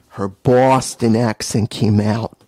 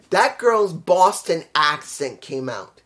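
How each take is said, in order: First: Low, loud, slow mock Boston accent. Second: Said in the usual way. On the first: Commentator telling how the wrestler's hometown came out, mock Boston accent. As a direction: imitate a Boston accent, drawn out and heavy.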